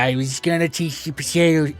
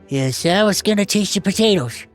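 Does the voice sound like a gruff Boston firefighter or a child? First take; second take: Boston firefighter; child. First: It is a gruff, crotchety Boston firefighter voice. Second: It is a lighter voice fitting a halfling child.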